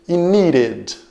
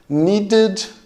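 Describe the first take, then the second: First: The middle consonant is a quick r-like flap. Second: The middle consonant is a clear d sound. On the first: "com o som de R, que é puxado mais para o americano" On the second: "com o som de D"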